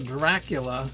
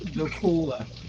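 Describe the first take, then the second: First: The name is said with an R sound. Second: The name is said without an R sound. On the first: The speaker calls it wrong. "I was pronouncing the name of the town wrong" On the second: The speaker calls it right. "There was no R"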